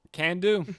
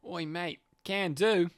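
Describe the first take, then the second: First: Australian attempt slipping into American; accidentally American-sounding accent. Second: Australian, anchored on "oi, mate"; easy Australian accent. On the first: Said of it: "Nope, that's American". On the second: Pretend. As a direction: find the Australian accent through an anchor phrase. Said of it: "oh, Keller, Australian".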